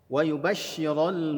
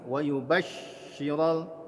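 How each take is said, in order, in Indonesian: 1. Bunyi sh mengalir dengan napas yang terus-menerus. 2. Bunyi sh tertahan dan terputus. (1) "harus alirkan" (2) "jangan sampai bunyinya tertahan seperti ini"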